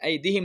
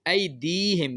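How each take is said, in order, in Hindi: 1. बीच का स्वर छोटा है, खींचा नहीं जाता। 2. बीच का स्वर लंबा है और खींचा जाता है। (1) "ऐदिहिम नहीं होता" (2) "ये ज़ेर के बाद या साकिन की गलती है"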